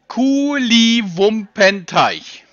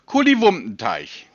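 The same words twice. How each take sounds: First: The word is said very slowly. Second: The word is said at a normal pace.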